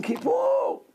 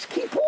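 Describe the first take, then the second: First: Kippur cried out much higher; retold scream. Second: Said in the usual way. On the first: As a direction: shout Kippur like the injured grandmother. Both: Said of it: "She was screaming".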